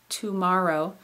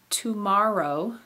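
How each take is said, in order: The two takes are said the same way.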